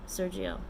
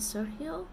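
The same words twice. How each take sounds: First: The name is pronounced with English sounds. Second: The name is pronounced with Spanish sounds. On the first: "probably the English way" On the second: "If it's Spanish, isn't it Sergio?"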